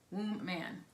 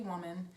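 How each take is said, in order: First: The word is split into 'womb' and 'man'. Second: The word is said the ordinary way, 'wuh-man'. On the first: "but it's it's womb, womb man" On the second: "we say woman"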